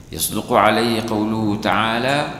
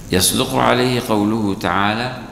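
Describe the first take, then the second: The two takes are said the same way.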